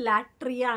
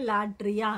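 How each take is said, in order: First: The middle consonant is a t sound. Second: The middle consonant is a d sound. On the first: "లాట్రియా అనే కంటే" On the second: "లాడ్రియా అంటారు"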